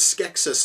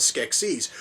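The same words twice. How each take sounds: First: Skeksis with a short, unstressed second syllable, SKEK-sis; pronounced SKEK-sis. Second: Skeksis with a long EE second syllable, SKEK-seez; pronounced SKEK-seez. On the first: Reviewer contrasting how certain characters say it, Skeksis as SKEK-sis. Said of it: "certain characters or certain species pronounced". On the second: Reviewer contrasting how the others say it, Skeksis as SKEK-seez. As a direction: say Skeksis ending like "seize". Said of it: "the others pronounced it as". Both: Shown as a demonstration.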